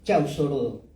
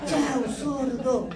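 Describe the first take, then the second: First: It is said calmly, without shouting. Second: It is said very loudly, like shouting.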